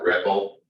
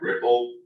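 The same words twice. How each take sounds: First: The first vowel is said as an 'e' sound. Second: The first vowel is said as an 'i' sound. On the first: This is how an English speaker would say it. "I would have pronounced that Ripple" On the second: This is how the makers say it. "E is pronounced like the letter I, so they actually called that Ripple"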